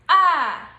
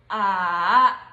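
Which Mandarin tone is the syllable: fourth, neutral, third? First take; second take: fourth; third. First: It is said in the fourth tone. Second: It is said in the third tone. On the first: "This is the fourth tone" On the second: "This one is the third tone"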